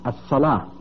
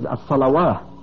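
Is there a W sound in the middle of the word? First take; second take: No; Yes. First: No w sound is pronounced in the middle. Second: A w sound is pronounced in the middle. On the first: The speaker calls it right. "it should read" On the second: The speaker calls it wrong. "if you read it literally, you read every letter"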